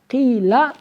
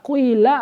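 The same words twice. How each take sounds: First: The first vowel is a pure i sound. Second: The first vowel blends u and i sounds. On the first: "Boleh dibaca kasroh khalis" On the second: "atau dibaca ismam. Ismam percampuran antara dhammah dengan kas kasroh"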